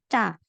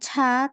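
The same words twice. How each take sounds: First: The consonant is tense with no h. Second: The consonant has a breathy h release. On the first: The speaker calls it right. "tapi ca" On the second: The speaker calls it wrong. "bukan ca"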